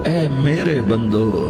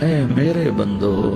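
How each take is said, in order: No difference in how they are said.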